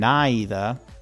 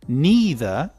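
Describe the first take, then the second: First: It is said with a British pronunciation. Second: It is said with an American pronunciation. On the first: "neither is British" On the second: "Neither is American"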